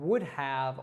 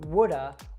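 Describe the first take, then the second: First: The word 'have' is said in full. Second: The word 'have' is reduced to 'uh'. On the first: "instead of us saying" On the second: "we'll reduce that simply to the schwa sound"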